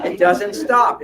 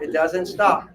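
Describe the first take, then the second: First: Laughing, loud, up high on it doesn't stop. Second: Said in the usual way. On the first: Real, not acted. Laughing at men's endless thoughts, loud and high. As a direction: laugh it out, louder.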